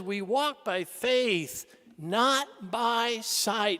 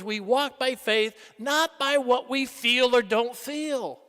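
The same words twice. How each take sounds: First: Very slow, measured scripture; solemn quote. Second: Said in the usual way. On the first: Retold or imitated. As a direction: let each word land. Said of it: "Saint Paul says". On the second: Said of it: "In other words".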